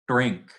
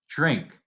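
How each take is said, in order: First: The word begins with a plain d stop. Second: The word begins with a j-like affricate. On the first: "it's not drink" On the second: "it's drink"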